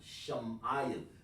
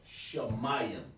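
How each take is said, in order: First: The first syllable ends with an m sound. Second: The first syllable ends with an open vowel. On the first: The speaker calls it wrong. "if I would say that, uh, Truprakas, that would be Sham" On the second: The speaker calls it right. "independent sound on Shah"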